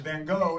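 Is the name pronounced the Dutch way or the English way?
English. The name is said with English sounds. "This guy that you all know as Van Gogh"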